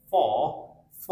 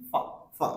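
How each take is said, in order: First: "ফ" with a long open aw, /fɔː/; strong form. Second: "ফা" as short /fə/; weak form. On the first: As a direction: hold the full vowel in "ফ". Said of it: "উচ্চারণ করি strong sound". ("ফ" লম্বা অ-ধ্বনিতে) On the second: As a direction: clip "ফা" to a quick uh. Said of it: "উইক সাউন্ডে sound আসছে". ("ফা" ছোট উইক সাউন্ডে) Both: Shown as a demonstration.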